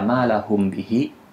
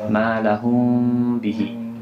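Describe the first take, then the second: First: The m is pronounced fully and clearly. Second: The m is hidden, lips slightly open, nasalized. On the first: The speaker calls it wrong. "itu maksudnya idhar. Karena mimnya dibaca jelas" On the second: The speaker calls it right. "agak dibuka sedikit bibirnya"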